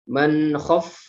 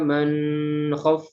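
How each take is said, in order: First: The n is said clearly without nasal hum. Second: The n is held with a nasal hum. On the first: The speaker calls it right. "dia dibaca jelas, tidak didengungkan" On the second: The speaker calls it wrong. "tidak boleh dibaca dengung. Tidak boleh"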